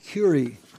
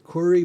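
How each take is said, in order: First: The name is said with an American pronunciation. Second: The name is said with a French pronunciation. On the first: "In America, we call it Curie" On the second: "I think the French would pronounce it Curie"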